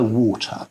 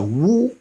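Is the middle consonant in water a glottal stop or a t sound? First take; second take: t sound; glottal stop. First: The middle consonant is a t sound. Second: The middle consonant is a glottal stop. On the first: The speaker calls it wrong. "When you have the T, so the T in water, you don't go water" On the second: The speaker calls it right. "and that's your glottal stop"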